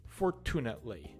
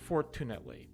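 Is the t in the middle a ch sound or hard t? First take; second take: hard t; hard t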